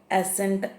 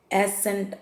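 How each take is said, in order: Both takes have the same delivery.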